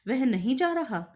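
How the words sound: It is said with a question intonation. It asks whether the person is not going. "इसी वाक्य को यदि हम प्रश्नवाचक बनाकर कहें"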